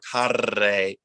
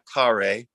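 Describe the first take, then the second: First: The R is a long, dramatic trill. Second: The R is a retroflex American R. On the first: "it's not a, a rolled uh, dramatic R" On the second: "it's not an American R"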